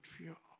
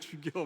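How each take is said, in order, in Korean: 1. 이 단어는 부드럽게 말해지며, juyeo처럼 들립니다. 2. 이 단어는 강하게 말해지며, jugyeo처럼 들립니다.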